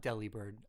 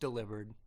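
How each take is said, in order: First: The name ends clearly with the word 'bird'. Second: The name sounds like the word 'delivered'. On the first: The speaker calls it wrong. "not Delibird" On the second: The speaker calls it right. "it's pronounced delivered"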